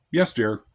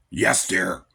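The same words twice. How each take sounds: First: A willing, kind "Yes, dear."; sweet yes dear. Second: "Yes, dear." dropped low and grumbled out; a begrudging "Yes, dear." with the words growled; reluctant husband grumbling at his wife; grudging yes dear. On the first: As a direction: answer your wife gently, meaning it. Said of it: "it's how you say it". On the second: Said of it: "Notice the difference". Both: Shown as a demonstration.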